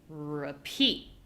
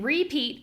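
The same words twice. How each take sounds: First: One syllable clearly stands out from the other. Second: Both syllables sound equally strong. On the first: The speaker calls it right. "Now they sound different" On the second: The speaker calls it wrong. "they sound too similar"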